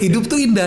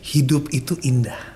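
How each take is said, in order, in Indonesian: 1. Diucapkan dengan nada tegas dan lugas. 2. Diucapkan dengan nada santai. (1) "Kalau gaya gue" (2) "Nah ini nadanya gue harus gaya kayak lu nih"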